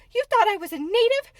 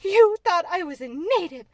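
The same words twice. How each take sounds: First: Outraged shouted question, much higher and louder; girl shouting in furious disbelief. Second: Shouted, falling accusation, louder and higher; humiliated girl raging at the maid. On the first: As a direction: hurl the question in shock. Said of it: "Mary sat up in bed furious". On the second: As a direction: hammer it as an accusation. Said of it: "control her rage and humiliation". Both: A narrator's reading.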